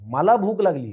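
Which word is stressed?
मला. The stress falls on the first word. It is I who am hungry. "महत्त्व मला आहे"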